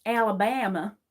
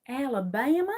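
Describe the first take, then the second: First: Southern "Alabama" with a stretched stressed vowel; Southern American accent. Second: Higher, rising Southern "Alabama"; Southern American accent. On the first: Trying the old Southern act, Southern American accent. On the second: Trying the old Southern act, rising Southern American accent. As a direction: lift the end of "Alabama" like a Southern question. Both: Acted.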